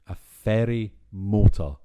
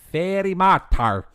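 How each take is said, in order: First: It is said in the speaker's normal accent. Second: It is said in a fake Scottish accent.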